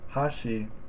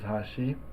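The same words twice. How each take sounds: First: The pitch is high, then drops on the second syllable. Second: The pitch is low, then rises on the second syllable. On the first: "the first mora, is high and the second mora is low" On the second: "the second syllable is a little bit higher than the first"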